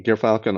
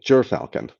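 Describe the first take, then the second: First: The first syllable sounds like 'gear'. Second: The first syllable sounds like 'ger'. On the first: The speaker calls it wrong. "excuse me" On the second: The speaker calls it right. "That's how you say it"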